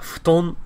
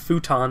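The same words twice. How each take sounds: First: Futon is said with Japanese sounds. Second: Futon is said with English sounds. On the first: It names a Japanese floor bed. "which is the Japanese pronunciation of it" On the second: It names a couch that turns into a bed. "in English there is the word futon"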